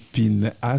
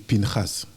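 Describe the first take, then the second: First: The name is said with a French-style pronunciation. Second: The name is said with a Hebrew pronunciation. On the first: The speaker calls it wrong. "quand tu dis Pinhas" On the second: The speaker calls it right. "ces prénoms bibliques se prononcent en hébreu"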